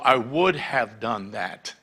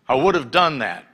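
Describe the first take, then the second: First: The word after 'would' is a full 'have'. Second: The word after 'would' sounds like 'of'. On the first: The speaker calls it right. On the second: The speaker calls it wrong. "would have instead of would have"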